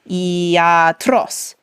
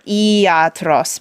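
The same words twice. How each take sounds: First: The stress falls on the last syllable. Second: The stress falls before the last syllable. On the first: The speaker calls it right. "but it's iatros" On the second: The speaker calls it wrong. "or iatros"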